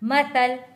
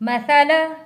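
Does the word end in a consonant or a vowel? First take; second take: consonant; vowel. First: The word ends on a bare consonant. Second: The word ends with a final vowel sound.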